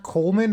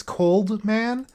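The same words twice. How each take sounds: First: "Coleman" said with no D in the middle; "Coleman" with the L running straight into M; mispronounced name. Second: "Coldman" said slowly with the D sounded; "Coldman" with a clear D before the M; corrected pronunciation. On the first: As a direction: say "Coleman" as COLE-man, dropping the D. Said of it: "I always mispronounce it". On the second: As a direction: say "Coldman" as COLD-man, two careful parts. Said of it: "discovered that it's not Coleman". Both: Shown as a demonstration.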